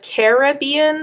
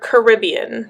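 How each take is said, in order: First: The first syllable sounds like 'care'. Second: The first syllable does not sound like 'care'.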